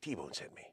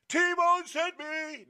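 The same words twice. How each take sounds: First: The phrase is said quietly. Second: The phrase is said loudly. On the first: The speaker calls it right. "But you're nice and quiet" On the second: The speaker calls it wrong. "Not T-Bone sent me. No, no, no"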